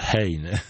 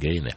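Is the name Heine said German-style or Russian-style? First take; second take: German; Russian. First: The name is said the German way. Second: The name is said the Russian way. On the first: "как нам здесь пишут, «хейне». Но мы не изучаем немецкий язык" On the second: "по-московски говорим «гейне»"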